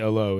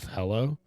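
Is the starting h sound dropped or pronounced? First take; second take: dropped; pronounced. First: The word starts without an h sound. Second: The word starts with an h sound. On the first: "they'd say hello" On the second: "instead of hello"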